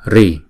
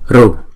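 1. Sau r là nguyên âm i. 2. Sau r là nguyên âm u. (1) "Có một số vùng miền đọc là Ri" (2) "một số vùng miền đọc là Ru"

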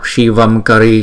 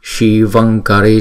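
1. Âm mũi trước 'kari' là âm m. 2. Âm mũi trước 'kari' là âm ng. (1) "Nếu mà chúng ta đọc Shivam Kari cũng được, không có bị sai" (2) "chúng ta đọc đúng cái tiếng Phạn là"

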